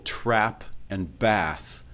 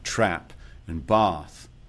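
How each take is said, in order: First: Both words share the same vowel sound. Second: The two words have different vowel sounds.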